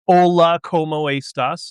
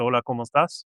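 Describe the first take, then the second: First: It is said with a heavy American accent. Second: It is said with a native Spanish accent. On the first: The speaker calls it wrong. "they pronounce it like, you know, gringo Spanish" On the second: The speaker calls it right. "Is supposed to"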